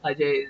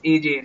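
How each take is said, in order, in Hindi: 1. नाम को एक ही शब्द के रूप में बोला जाता है, a-jay। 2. नाम को A और J अक्षरों के रूप में बोला जाता है। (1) "They will not understand what Ajay is" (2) "They don't know how it's pronounced. For them, it's AJ"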